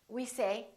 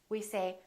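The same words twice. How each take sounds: Both takes have the same delivery.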